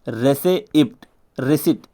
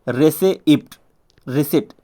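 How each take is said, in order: No difference in how they are said.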